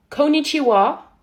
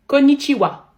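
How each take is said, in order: First: Loud, drawn-out Japanese greeting in an American accent; accent américain. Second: Said in the usual way. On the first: Shown as a demonstration. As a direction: shout it slowly like an exaggerated American. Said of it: "Faut faire avec un, un accent américain". (gros accent américain, fort et traînant) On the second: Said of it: "un accent américain".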